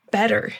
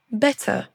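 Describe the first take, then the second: First: American accent. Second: British accent. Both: Shown as a demonstration. Drill alternates American and British.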